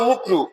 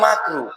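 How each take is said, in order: First: The first vowel is a 'u' sound. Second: The first vowel is an 'a' sound. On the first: The speaker calls it wrong. "হুজুর বলছে মুকরু" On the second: The speaker calls it right. "শব্দটা হচ্ছে মাকরু"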